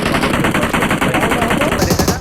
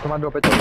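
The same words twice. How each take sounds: First: Very slow, stretched, louder and higher; drawn-out loud call. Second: Said in the usual way. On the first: Real, not acted. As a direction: drag the words out as a loud call. Urging teammate to their drop.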